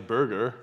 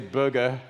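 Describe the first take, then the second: First: The R sounds are clearly pronounced. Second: The R sounds are dropped. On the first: This is how the speaker talks after moving. "I definitely enunciate my R's a little more. now I say burger" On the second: This is how the speaker talked before moving. "I used to say burger"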